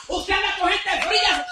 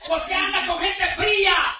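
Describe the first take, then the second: First: "fría" punched loud with a falling end; stress on fría. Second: "fría" hit hard and falling in a loud shout; stress on fría. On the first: Preacher accusing the congregation, loud stress on "fría". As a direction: accuse flatly, landing on "fría". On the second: Preacher scolding believers who mix with cold people, "fría" shouted. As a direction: shout the question, landing on "fría". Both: Acted.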